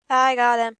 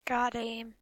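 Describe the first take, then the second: First: Loud, with I punched; triumphant shout. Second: Said in the usual way. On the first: Real, not acted. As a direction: yell it in triumph.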